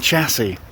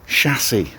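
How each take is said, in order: First: It begins with a 'ch' sound, as in chat. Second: It begins with a soft 'sh' sound. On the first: The speaker calls it wrong. "it's chassis, not chat" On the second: The speaker calls it right. "like chasseur or charcuterie"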